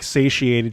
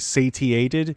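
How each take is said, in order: First: The middle sound is a soft 'sh'. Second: The middle sound is an overpronounced 't'. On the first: "instead of saying like satiated" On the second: "she would say satiated"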